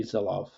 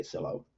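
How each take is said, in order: First: Sylow said as "SEE-lof"; correct pronunciation. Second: Sylow said as "SEE-low"; common mispronunciation. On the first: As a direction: close Sylow with an f or v sound. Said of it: "the pronunciation is not good". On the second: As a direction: let Sylow end on "oh", without the f. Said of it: "we say Sylow". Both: Shown as a demonstration.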